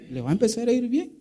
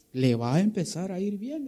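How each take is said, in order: First: "Le va a empezar a ir bien" fast and high, "bien" rising; fervent promise. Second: Said in the usual way. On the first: Acted. Preacher pressing the promise on the brother, fast and fervent. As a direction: rattle it off with rising fervor.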